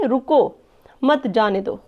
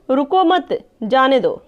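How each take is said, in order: First: रुको, a clear stop, then lower मत जाने दो; pause after रुको. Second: रुको मत run together, a stop, then जाने दो; slow order not to stop, break after मत; pause after मत. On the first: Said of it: "रुको के बाद कॉमा लिखा है". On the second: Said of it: "रुकना नहीं है, जाने दो". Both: Shown as a demonstration.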